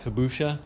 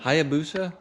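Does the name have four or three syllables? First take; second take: three; four. First: The name has three syllables, ending in busha. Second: The name has four syllables, ending in busa. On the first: The speaker calls it wrong. "I pronounced that wrong" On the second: The speaker calls it right. "How do you pronounce that?"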